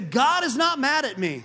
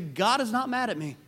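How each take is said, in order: First: It is said forcefully with strong conviction. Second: It is said in a plain, ordinary way. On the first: "Now let's say it like we mean it" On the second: "let's all say that together"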